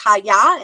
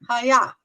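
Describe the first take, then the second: First: The word is said carefully, each sound clear. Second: The word is slurred, its sounds run together. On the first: The speaker calls it right. "It's haya" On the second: The speaker calls it wrong. "even then I just did it"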